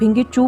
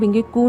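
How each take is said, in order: First: The last syllable starts with a ch sound. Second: The last syllable starts with a k sound. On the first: The speaker calls it right. "भिंगी चू बोलती हूँ" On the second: The speaker calls it wrong. "भिंगी कू नहीं बोलती"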